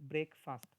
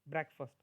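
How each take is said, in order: First: It is said as 'brake fast', two separate words. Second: It is said as 'breck-fust', run together. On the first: The speaker calls it wrong. "Not ब्रेकफास्ट" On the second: The speaker calls it right. "This is the proper pronunciation"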